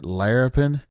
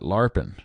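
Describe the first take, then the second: First: The first syllable sounds like 'lair'. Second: The first syllable sounds like 'lar'. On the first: This is how the other person says it. "You're calling it larapin" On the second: This is how it is said down in Kentucky. "My granny used to call it larpin. ... it's lar instead of lair"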